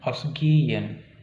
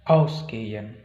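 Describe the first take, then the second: First: The stress is on a later syllable. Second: The stress is on the first syllable. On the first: The speaker calls it wrong. "Bukan ausgehen" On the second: The speaker calls it right. "kata kerja terpisah nanti dia penekanannya di prefiksnya"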